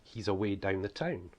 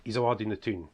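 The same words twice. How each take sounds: First: Said in the usual way. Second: Broad northeast Scottish accent, "doon the toon"; broad Scottish dialect. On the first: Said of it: "That's, that's how we speak". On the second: Shown as a demonstration. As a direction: say it in strong local Scots. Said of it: "it's things like ... that's how we speak".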